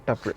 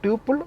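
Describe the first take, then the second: First: "tuple" pronounced TUP-ul; first syllable of "tuple" like "tup" in "tupperware"; short-u pronunciation. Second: "tuple" pronounced TYOO-pul; first syllable of "tuple" like "tyoo"; long-u pronunciation. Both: Shown as a demonstration. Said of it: "pronounce it".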